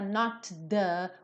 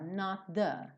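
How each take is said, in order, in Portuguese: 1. O T e o som seguinte são pronunciados separadamente. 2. O T e o som seguinte se juntam em um só. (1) "a gente não fala" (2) "É um som só, olha só"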